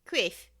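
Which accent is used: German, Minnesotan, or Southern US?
Minnesotan. It is said in a Minnesotan accent.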